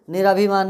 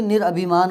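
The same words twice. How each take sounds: First: निराभिमान with long "raa"; wrong joined form. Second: निरअभिमान as nir-abhi-maan; short a. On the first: Teacher showing the mistaken form, long-vowel निराभिमान. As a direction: say निराभिमान as ni-raa-bhi-maan. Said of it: "नहीं". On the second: Teacher correcting students' word, short-vowel निरअभिमान. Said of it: "निराभिमान नहीं". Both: Shown as a demonstration.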